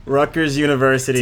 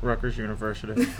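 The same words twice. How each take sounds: First: Louder, clearly enunciated; to someone hard of hearing. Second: Mumbled. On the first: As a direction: say it up so they hear you. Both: Pretend. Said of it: "speak up, please".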